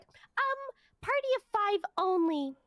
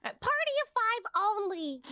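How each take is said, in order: First: High, snooty voice mocking her; mocking rude worker. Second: High, slow, snooty repeat; mocking rude worker. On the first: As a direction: sneer it like a dismissive clerk. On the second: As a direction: drag it out like a bored clerk. Mocking rude line worker again.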